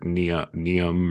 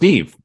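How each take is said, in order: First: The name is said as two syllables, 'Nee-um'. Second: The name is said as one syllable, 'Neev'. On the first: The speaker calls it wrong. "or Neum" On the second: The speaker calls it right. "but it's pronounced Neve"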